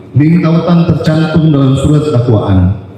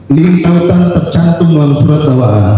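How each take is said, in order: No difference in how they are said.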